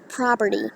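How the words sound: The first vowel is an ah sound.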